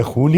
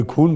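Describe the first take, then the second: First: 'खून' with a throaty Urdu kh fricative; Urdu तलफ़ुज़. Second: 'खून' with a plain aspirated k-h; बिना नुक़्ते का उच्चारण. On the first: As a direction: say 'खून' as khoon with a scraped kh. ('खून' का ख नुक़्ते वाला, ख़ून) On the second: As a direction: say 'खून' with hard kh, no throaty scrape. ('खून' में सादा ख, बिना नुक़्ते) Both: Shown as a demonstration. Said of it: "कोई खून बोलेगा तो मेरा खून जल जाता".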